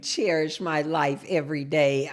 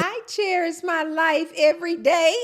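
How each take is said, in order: First: Low, slow, savoring repeat; relishing each word, low and unhurried. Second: High-pitched delighted shout-out; pitched way up, cheering the name; excited exclamation. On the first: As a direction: drop the pitch and stretch it out. Repeats the username after exclaiming. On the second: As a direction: sing out the username high with delight. Exclaiming over a username. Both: Real, not acted.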